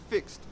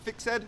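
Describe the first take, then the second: First: The ending is a soft t sound. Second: The ending is a voiced d sound. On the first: The speaker calls it right. "it's fixed" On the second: The speaker calls it wrong. "not fixed"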